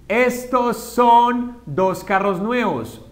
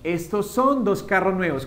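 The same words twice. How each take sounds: First: Slow Spanish model sentence; slow dictation. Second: Said in the usual way. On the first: Shown as a demonstration. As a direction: read it slowly for the class. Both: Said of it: "vamos a hablar de cuando está cerca".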